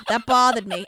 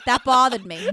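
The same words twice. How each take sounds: First: A light hint of a rumpled TV detective; lightly done detective mutter; Columbo. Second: Said in the usual way. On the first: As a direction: muse it like a TV detective. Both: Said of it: "Now it's Columbo".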